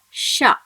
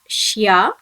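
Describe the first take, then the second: First: The sh sound goes straight into a. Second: A y glide follows the sh sound. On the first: The speaker calls it right. "it must be pronounced as sha" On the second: The speaker calls it wrong. "it should not be pronounced as shya"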